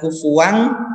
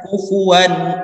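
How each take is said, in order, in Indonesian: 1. Kata ini berakhir dengan bunyi sengau ng. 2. Kata ini berakhir dengan n yang diucapkan dengan jelas. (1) "Jadi bukan kufuang" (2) "tapi menjadi uh, n akhirnya. Kufuwan ahad. Jelas"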